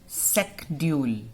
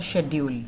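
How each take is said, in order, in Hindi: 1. यह शब्द 'sk' ध्वनि से शुरू होता है। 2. यह शब्द 'sh' ध्वनि से शुरू होता है। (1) "Now we pronounce it secdule" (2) "Earlier we used to pronounce it uh, pronounce it as a schedule. श बोलते थे हम इसको, C H को"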